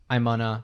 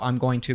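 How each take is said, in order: First: Going to is squeezed into gonna. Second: Every word is said out fully. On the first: "becomes I'm gonna" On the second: "how I'm going to becomes"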